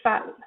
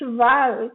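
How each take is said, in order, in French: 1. La deuxième consonne est un f sourd. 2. La deuxième consonne est un v sonore. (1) "c'est cheval" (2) "C'est pas cheval qu'on fait"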